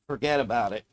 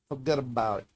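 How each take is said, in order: First: It is read in a plain, neutral accent. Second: It is said in a New York accent. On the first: The speaker calls it wrong. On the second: The speaker calls it right.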